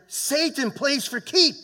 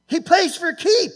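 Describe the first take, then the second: First: Rising preacher's warning. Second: Much higher and louder, slow, full-force preaching; preacher's peak shout. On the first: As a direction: lean into it and build the warning. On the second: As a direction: hit the top of the sermon hard. Preacher repeats, climaxing. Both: Real, not acted.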